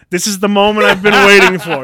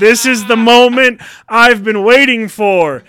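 First: Loud, high mounting excitement; fired-up declaration. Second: Slow, very loud, high proclamation; epic climactic shout. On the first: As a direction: declare it with building eagerness. Acted build-up before a fight. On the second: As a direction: stretch every word into a triumphant roar. Repeats it bigger, drawn out. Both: Acted.

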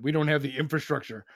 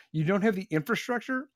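First: Prim, put-on voice for the excuse; mocking their excuse. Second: Rising disbelief on "have" and "infrastructure"; incredulous echo. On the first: Host mimics Martha's Vineyard residents, mocking put-on voice. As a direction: parrot the excuse in a mock, prissy tone. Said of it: "because they're like". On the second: Real, not acted. Host fires the excuse back at residents, incredulous rise. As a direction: throw the words back, "have" high and rising. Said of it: "echoes quote in disbelief".

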